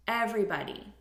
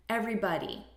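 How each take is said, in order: Both takes have the same delivery.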